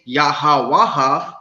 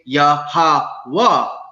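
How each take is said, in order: First: The final 'ha' syllable is clearly pronounced. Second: The final 'ha' is dropped into a breath. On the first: The speaker calls it wrong. "we don't say Yahawaha" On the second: The speaker calls it right. "we say Yahawa"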